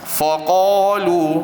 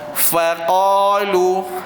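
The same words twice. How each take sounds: First: The first syllable sounds thick and heavy. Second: The first syllable sounds thin and open. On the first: "mula-mula kita sebut dalam keadaan yang tebal sedikitlah pada huruf fa" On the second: "nipiskan dia, huruf fa buka"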